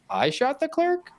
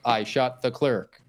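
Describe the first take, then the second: First: It rises like an incredulous question. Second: It falls like a flat statement.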